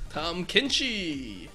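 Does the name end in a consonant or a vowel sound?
vowel. The name ends with an added vowel sound.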